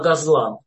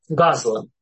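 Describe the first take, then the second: First: The stress falls where Hebrew places it. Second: The stress falls where Yiddish places it. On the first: "На иврите просто ударение смещается" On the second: "в идишском произношении"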